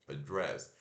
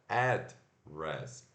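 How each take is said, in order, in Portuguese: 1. A sílaba tônica é a segunda. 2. A sílaba tônica é a primeira. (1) "O dress é a sílaba tônica" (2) "o ad, que é o, a sílaba tônica"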